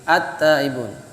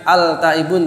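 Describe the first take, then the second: First: The L merges into a doubled T sound. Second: The L sound of the article is heard. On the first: The speaker calls it right. "tapi at-taibun" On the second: The speaker calls it wrong. "bukan al-taibun"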